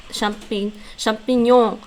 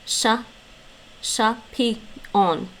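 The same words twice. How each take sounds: First: Champignon with a French nasal gn ending, champi-nyon; French champignon with the gn sound; French pronunciation. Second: Chapillon said slowly as sha-pee-yon, the gnon sound dropped; drawn-out chapillon, no nasal gn; Dutch pronunciation. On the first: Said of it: "the Dutch don't pronounce the gnon part". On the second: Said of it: "So they pronounce it". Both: Shown as a demonstration.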